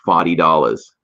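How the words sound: It is said in a strong regional accent.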